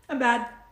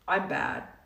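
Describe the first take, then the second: First: It sounds relaxed and self-accepting. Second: It sounds harsh and self-critical. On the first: The speaker acknowledges the mistake without condemning herself. The speaker calls it right. "One's accepting" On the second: The speaker condemns herself for the mistake. The speaker calls it wrong. "one's judgmental"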